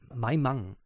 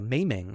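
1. Der Name wird nicht englisch ausgesprochen. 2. Der Name wird englisch ausgesprochen. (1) "Aber nein" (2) "man will das ja unbedingt Englisch aussprechen"

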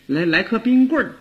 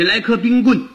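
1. 最后一个音节带儿化音。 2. 最后一个音节是普通收尾，没有儿化音。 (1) "可是你要说话呢就得说冰棍儿" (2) "就是你要不用儿化，你听起来多可怕呀"

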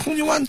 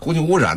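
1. 中间的音节合并成一个快速的音。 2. 每个音节都清楚地分开说。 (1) "说着说着空气湾了" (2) "实际上是空气污染"

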